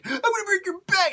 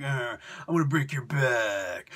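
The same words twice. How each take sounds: First: Much higher, louder mock yell; hammed-up screaming threat; mock Bane yell. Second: Low, casual Bane threat; a hint of a brute muttering; lightly voiced Bane. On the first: Bane taunting Batman's dad, high mock yell. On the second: Bane taunting Batman's dad, low mock threat. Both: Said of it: "I'm just gonna be like".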